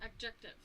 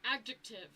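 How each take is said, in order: First: Adjective as ag-JEK-tiv, stress wrongly on the second syllable; faltering pronunciation. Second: Adjective as AJ-ik-tiv, stress on the first syllable; corrected pronunciation. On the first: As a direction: stumble softly onto adjective, stressing "jec". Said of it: "that doesn't sound right". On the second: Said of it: "That's how you say it". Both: Real, not acted.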